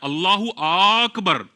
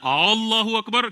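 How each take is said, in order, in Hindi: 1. Akbar का पहला स्वर लंबा होता है। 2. Allahu का पहला स्वर लंबा होता है। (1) "अकबर के अलिफ पर खड़ा जबर पढ़ देता है" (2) "अल्लाह की अलिफ पर अगर खड़ा जबर पढ़ दिया"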